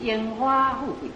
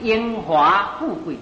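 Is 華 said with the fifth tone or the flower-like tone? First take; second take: flower-like tone; fifth tone. First: 華 is said with the flower-like tone. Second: 華 is said with the fifth tone. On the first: The speaker calls it wrong. "不是" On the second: The speaker calls it right. "那是"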